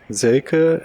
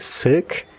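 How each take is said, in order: First: The name is said with German pronunciation. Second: The name is said with English pronunciation. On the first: "is how it is pronounced in German" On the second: "I would say Silk"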